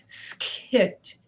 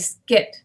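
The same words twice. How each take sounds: First: A puff of air follows the K. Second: No puff of air follows the K. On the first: The speaker calls it wrong. "we do not go skit. We don't we don't let air out after the K" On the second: The speaker calls it right. "no space between those, and no air after the K"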